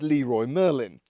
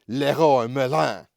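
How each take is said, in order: First: It is said in a plain, unaccented way. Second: It is said with a fake French accent.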